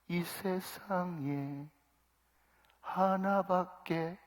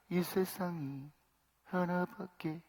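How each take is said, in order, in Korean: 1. 각 단어가 또렷하고 분명하게 발음되었어요. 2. 단어들이 뭉개지고 서로 붙어서 들려요. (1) "가사를 곱씹으면서 또릿또릿하게" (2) "가사를 막 그냥 흘려버린다는 거예요"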